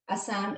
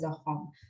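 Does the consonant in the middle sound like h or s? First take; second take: s; h. First: The middle consonant is an s sound. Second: The middle consonant is an h sound. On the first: This is the commonly used form. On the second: This is how it is said locally.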